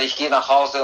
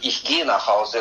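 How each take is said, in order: First: The stress is on "Hause". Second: The stress is on "gehe".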